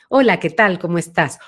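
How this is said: The voice has a medium, central resonance.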